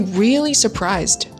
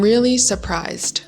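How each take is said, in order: First: It is said with an American accent. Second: It is said with a British accent. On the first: "a little bit more attitude to make it more American" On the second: "For the British attitude"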